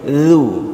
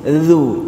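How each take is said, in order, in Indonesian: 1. Bunyi pertama adalah 'th' bersuara. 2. Bunyi pertama adalah 'th' bersuara.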